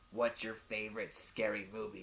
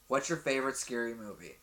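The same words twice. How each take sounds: First: It is said in a put-on menacing voice. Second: It is said in the speaker's normal voice.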